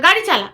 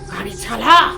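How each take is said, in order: First: It is said in a normal voice. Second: It is said loudly in a changed, eerie voice.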